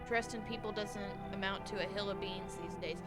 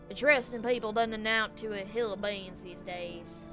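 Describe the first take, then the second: First: It is said without a southern accent. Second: It is said in a southern accent.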